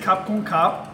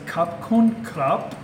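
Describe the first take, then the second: First: The final consonant is swallowed, nearly silent. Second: The final consonant is clearly released. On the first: "it may sound like I'm saying "ka," but there is a "b" at the end" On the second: "I don't say"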